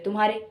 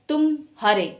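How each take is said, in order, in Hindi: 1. यह जल्दी से बोला जाता है, बीच में कोई विराम नहीं। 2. पहले शब्द के बाद विराम है। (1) "मैंने कोई विराम नहीं छोड़ा, मैंने फटाफट बोल दिया" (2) "मैंने तुम के बाद विराम लिया और फिर मैंने बोला हारे"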